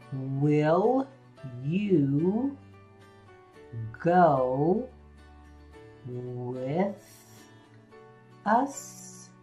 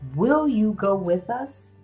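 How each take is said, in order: First: Each word is stretched out slowly. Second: It is spoken at a natural talking speed.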